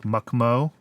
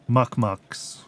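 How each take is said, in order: First: The word ends without any ks sound. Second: The word ends with an audible ks sound. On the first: "Make the X silent like in French" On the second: "I guess you could pronounce the O U like should"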